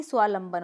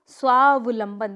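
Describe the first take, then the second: First: स्वालंबन without the middle v; incorrect pronunciation. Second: स्वावलंबन loud and slow, with clear v; correct pronunciation. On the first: Teacher warning of a mistake, स्वालंबन with v dropped. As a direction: say स्वालंबन as swaa-lam-ban. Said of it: "ना कि". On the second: Teacher drilling the answer, स्वावलंबन with v sounded. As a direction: say स्वावलंबन as swaav-lam-ban. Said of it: "क्या होगा?". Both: Shown as a demonstration.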